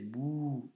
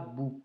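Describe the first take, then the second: First: The vowel is held long. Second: The vowel is kept short. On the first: The speaker calls it right. "Même chose ici, c'est bou" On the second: The speaker calls it wrong. "et pas bou"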